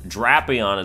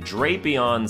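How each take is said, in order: First: The first syllable sounds like 'drap'. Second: The first syllable sounds like 'drape'. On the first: "I don't even know what the word drap is a root for" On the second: "sounds like it's just being draped over a clothesline"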